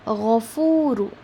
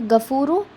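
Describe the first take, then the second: First: It starts with a raspy throat gh sound. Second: It starts with a hard g sound. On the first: The speaker calls it right. "It is gha. It is ghain" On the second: The speaker calls it wrong. "It is not gafuru. Okay, it is not ga"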